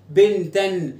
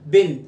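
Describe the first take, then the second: First: "بنتًا" said "bintan", the final n sounded; with tanween. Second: "بنت" cut to the bare word, no -an; tanween removed. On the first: Teacher demonstrates a tanween word, final -an sounded. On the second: Teacher removes the tanween from the word, ending dropped. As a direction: say "بنت" short and louder, without the ending. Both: Shown as a demonstration. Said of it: "شيل التنوين".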